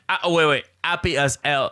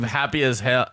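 First: The h sounds in happy and hell are dropped. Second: The h sounds in happy and hell are pronounced.

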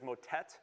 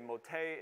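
First: The word is said with an English pronunciation. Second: The word is said with a French pronunciation. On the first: "our pronunciation is motet" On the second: "They would say motet"

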